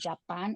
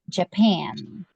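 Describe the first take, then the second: First: The stress is on the first syllable. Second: The stress is on the second syllable. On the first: The speaker calls it wrong. "it's not correct" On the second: The speaker calls it right. "you pronounce it Japan"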